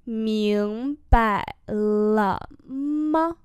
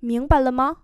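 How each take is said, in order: First: Very slow, syllable by syllable; slow-motion pronunciation model; slow demonstration. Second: Said in the usual way. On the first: Shown as a demonstration. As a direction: draw out each syllable for learners. Teacher repeats slowly for learners.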